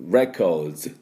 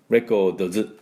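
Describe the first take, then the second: First: The final D and S are blended together. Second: The final D and S are said separately. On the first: The speaker calls it right. "もうDとS、もう一緒に出すのつもり" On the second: The speaker calls it wrong. "records じゃありません"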